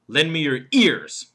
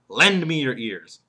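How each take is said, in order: First: The stress falls on the word ears. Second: The stress falls on the word lend. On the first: Lend ears rather than eyes, nose or hands. "And then there's the fourth word, ears" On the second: The listeners should give their attention. "The emphasis there is lend"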